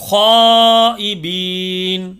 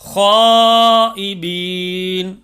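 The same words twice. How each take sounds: The two takes are said the same way.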